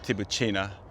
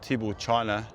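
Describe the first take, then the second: First: The middle sounds like 'boo', as in 'tibooshina'. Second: The middle sounds like 'bull', as in 'tibble china'. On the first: The speaker calls it right. "is probably the better, the more correct way to pronounce it" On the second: The speaker calls it wrong. "Tibble China or"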